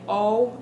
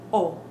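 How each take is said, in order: First: The vowel glides, English style. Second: The vowel is short, crisp and pure. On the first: "It's the same in English. We say O" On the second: "In Spanish, make it crisp"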